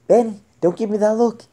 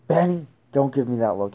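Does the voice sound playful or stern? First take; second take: playful; stern. First: It is said in a light, playful tone. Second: It is said in a harsh, stern tone. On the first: The dog would start wagging its tail. "And you'd start wagging" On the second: The dog would cower. "he probably would have, like, cowered"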